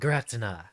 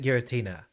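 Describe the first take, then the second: First: The name is pronounced in a harsher, less pretty way. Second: The name is pronounced in a dainty, pretty way. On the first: The creature seems fearsome and violent. The speaker calls it right. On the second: The creature seems gentle and pretty. The speaker calls it wrong.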